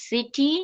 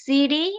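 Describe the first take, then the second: First: City with a clear T; true T, wrong version. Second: City as "siri", a quick tap; flap T. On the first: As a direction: say city with a sharp T, "si-tee". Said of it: "not city". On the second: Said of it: "It will be". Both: Shown as a demonstration.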